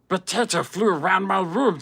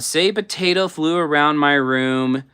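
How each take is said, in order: First: It is said in an imitation of Stitch. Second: It is said in her normal voice.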